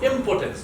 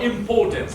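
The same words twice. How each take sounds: First: The stress is on the first syllable. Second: The stress is on the second syllable. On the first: The speaker calls it right. "pronounce it correctly. It's impotence" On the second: The speaker calls it wrong. "not impotence"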